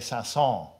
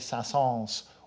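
First: The final S of the name is silent. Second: The final S of the name is pronounced. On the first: "and not to pronounce the final S" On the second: "with the final S"

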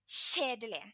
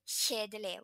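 First: The word is pronounced with an altered, exaggerated sound. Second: The word is pronounced in the standard way. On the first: Something is really boring. The speaker calls it wrong. "I make it stronger by like mispronouncing it" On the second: Something is boring. The speaker calls it right. "which would be the correct word"

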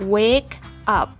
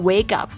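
First: The two words are said slowly and separately. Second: The two words are said fast and run together. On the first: "คำนี้อ่านว่า" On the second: "ถ้าอ่านเร็วๆมันจะออกเสียงว่า"

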